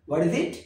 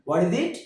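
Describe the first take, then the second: No difference in how they are said.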